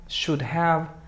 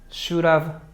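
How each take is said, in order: First: The word have is said in full. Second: The word have is reduced and linked. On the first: "Pronunciación formal" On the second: "Pronunciación informal y como comúnmente se habla"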